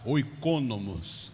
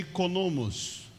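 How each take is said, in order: First: The word starts with an 'oy' sound. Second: The word starts with an 'ee' sound. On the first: The speaker calls it wrong. "desse jeito que escreve, com K" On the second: The speaker calls it right. "Mas se pronuncia ikonomos"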